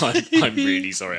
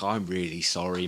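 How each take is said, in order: First: Much higher, much louder apology. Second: Said in the usual way. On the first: Retold or imitated. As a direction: blurt the sorry out as if still shouting. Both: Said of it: "You were shouting quite a lot".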